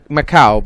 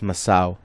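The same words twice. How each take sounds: First: The middle consonant sounds like a K. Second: The middle consonant sounds like an S.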